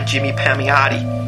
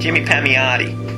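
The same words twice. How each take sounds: First: It is said in his ordinary accent. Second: It is said in a New York accent.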